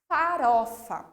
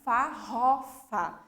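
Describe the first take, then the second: First: The middle R is soft and short. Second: The middle R is strong and long. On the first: "o som vai ser mais fraco e vai ser mais curto" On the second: "porque ela ia ter um som mais forte"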